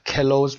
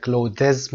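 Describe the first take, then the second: First: Said in the usual way. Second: Clothes said as "clodez" with a vowel between the consonants; clothes mispronounced with an added vowel in the cluster; wrong vowel inserted. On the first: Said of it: "clothes و spring رو اگه دقت بکنید". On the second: Shown as a demonstration. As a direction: break up clothes with an extra vowel, clo-dez.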